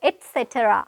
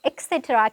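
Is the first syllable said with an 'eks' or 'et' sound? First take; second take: et; eks. First: The first syllable has a T sound. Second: The first syllable has an X sound. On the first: The speaker calls it right. "t t sound එකක් එක්ක pronounce කරනවා" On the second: The speaker calls it wrong. "අපි මේක pronounce කරන්නේ X කියන sound එකෙන් නම් නෙමෙයි"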